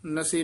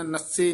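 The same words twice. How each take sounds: First: ਨਸੇ with a light, single s; ਨਸੇ said lightly as na-se; soft, unstressed consonant. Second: ਨਸੇ with a hard doubled s, nas-se; ਨਸੇ tightened to nasse; wrong tight reading. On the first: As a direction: keep the s in ਨਸੇ short and loose. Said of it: "ਪੋਲਾ ਹੀ ਉਚਾਰਨ ਕਰਨਾ ਹੈ". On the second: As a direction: press and lengthen the s in ਨਸੇ. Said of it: "ਨਸੇ ਨਹੀਂ ਕਹਿਣਾ". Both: Shown as a demonstration.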